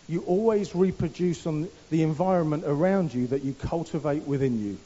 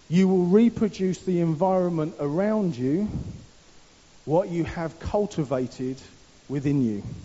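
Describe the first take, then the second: First: It is said at a normal pace. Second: It is said slowly and deliberately.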